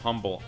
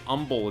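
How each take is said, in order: First: The word starts with an h sound. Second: The word starts without an h sound. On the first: "instead of humble" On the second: "They say umble"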